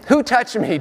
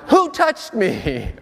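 First: It is said in a plain, serious voice. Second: It is said in a whiny, complaining child voice.

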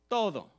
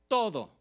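Both takes have the same delivery.

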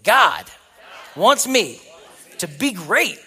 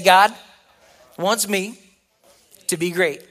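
First: It is said with strong, confident conviction. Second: It is said plainly, without much conviction. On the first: "Now say it like you believe it" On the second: "So say this with me"

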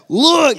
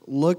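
First: The word is said with strong emphasis. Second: The word is said flatly, without emphasis.

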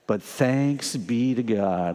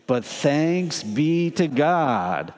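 First: It is said with plain, ordinary energy. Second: It is said with extra force and energy.

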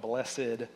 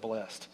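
First: The word is said with two syllables. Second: The word is said with one syllable. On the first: "you always want to put the extra pronunciation on blessed" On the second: "instead of blessed"

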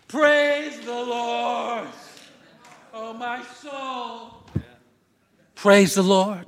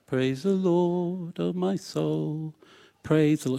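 First: It is said with exuberant, loud energy. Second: It is said in a restrained, contained way.

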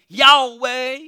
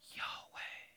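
First: It is said in a full, voiced Southern way. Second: It is said softly like a breathy whisper.

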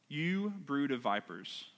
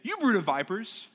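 First: It is said calmly, without force. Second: It is said forcefully, like an exclamation.

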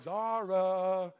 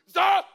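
First: She calls the name in a light, playful way. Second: She calls the name in a stern, alarmed mom voice.

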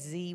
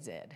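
First: The letter is said the American way, 'zee'. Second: The letter is said the Australian way, 'zed'.

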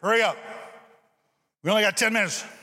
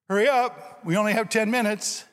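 First: The pitch goes down, sounding scolding. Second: The pitch goes up, sounding encouraging. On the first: The speaker is belittling the children. The speaker calls it wrong. "that's totally different" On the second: The speaker is challenging the children to get moving. The speaker calls it right. "It's kind of up. It's you're challenging them to get with it"

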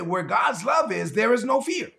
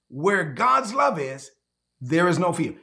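First: It is said at a normal pace. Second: It is said slowly and deliberately.

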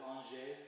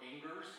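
First: The name is said with a French pronunciation. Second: The name is said with an American pronunciation. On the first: The speaker calls it right. "but it's Angers, France" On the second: The speaker calls it wrong. "That's how the Americans would say it"

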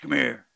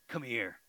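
First: It is said in a very deep voice. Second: It is said in a normal voice.

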